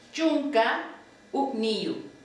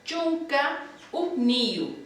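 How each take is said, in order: First: "Chunka" rising, a pause, then "uqniyu" falling; split into parts. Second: "chunka uqniyu" said slowly as one smooth phrase; teacher gives the whole word at a slow pace. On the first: Teacher splitting eleven into parts, pause between halves. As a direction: break the word in two for students to copy. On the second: Teacher modelling eleven for the class, slow and smooth. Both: Shown as a demonstration. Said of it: "Once sería".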